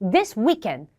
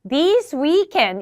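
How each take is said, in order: First: Both words are said short. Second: Both words are drawn out long. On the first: "단음 단음인 거죠. 둘 다 짧았잖아요" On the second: "이래도 둘 다 장음"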